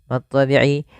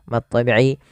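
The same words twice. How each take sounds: Both takes have the same delivery.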